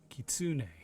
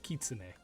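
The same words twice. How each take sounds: First: The word is pronounced with English-style sounds. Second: The word is pronounced with Japanese-style sounds. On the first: The speaker calls it wrong. "This guy's pronunciation is horrible. He says it was it kitsune like that" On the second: The speaker calls it right. "is how it's supposed to be pronounced"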